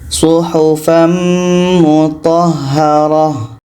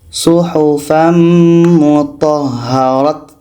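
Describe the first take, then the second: First: The final word ends with an h sound. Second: The final word ends with a t sound. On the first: The speaker calls it right. "Ta ini berubah menjadi huruf ha, huruf ha yang berbaris mati" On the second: The speaker calls it wrong. "kita menjadi ta, itu tak boleh"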